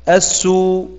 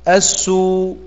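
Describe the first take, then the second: No difference in how they are said.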